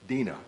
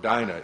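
First: The name is said in a less common way. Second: The name is said in the common way.

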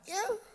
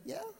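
First: It is said at a higher pitch. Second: It is said at a low pitch.

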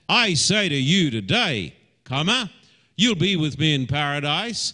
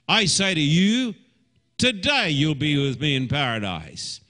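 First: The pause comes after 'today'. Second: The pause comes after 'you'.

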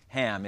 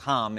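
First: The name has an American English pronunciation. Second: The name has a Hebrew pronunciation. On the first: "I'm saying it in my best American accent" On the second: "It's Ham in Hebrew"

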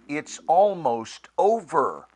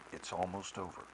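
First: It is said urgently and encouragingly. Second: It is said gently and soothingly. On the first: It is a call to action before the end. "a different inflection of those same three words that's, come on" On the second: It is a comfort that the struggle will end. "can gently say to ourselves, hey, relax, breathe"

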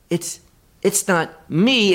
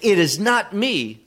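First: The voice rises at the end like a question. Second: The voice falls at the end like a statement. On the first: They ask, unsure, whether it might be them. "but they said it as a question" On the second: They state flatly that it is not them. "not in a declarative way"

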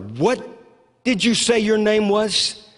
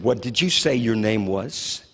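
First: The question is said more loudly. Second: The question is said at normal volume.

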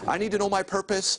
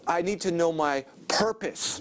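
First: The stress is on "my". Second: The stress is on "purpose".

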